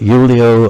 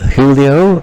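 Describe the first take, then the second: First: The name is said the German way. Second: The name is said the Spanish way.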